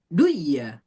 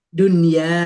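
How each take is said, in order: First: The n sound is merged into the y. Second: The n sound is kept clear before y. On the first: The speaker calls it wrong. "jangan mentang-mentang dan mati ketemu ya dan wau dibacanya" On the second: The speaker calls it right. "itu nggak dibaca, nggak dibaca idgham"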